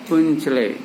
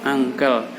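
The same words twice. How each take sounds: First: "Muncele" read letter by letter as mun-che-le; spelling pronunciation. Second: "uncle" said as ang-kel, the English way; correct English pronunciation. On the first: (ucapan "Muncele" dibaca sesuai tulisan, mun-che-le) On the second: (ucapan "uncle" yang benar, ang-kel) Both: Shown as a demonstration. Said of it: "Bacanya ang-, uncle".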